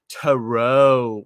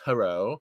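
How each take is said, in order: First: The final syllable is stretched out very long. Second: The final syllable is said short and plain. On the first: "like five, you know, minutes later, you're still saying "row."" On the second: "it's not just"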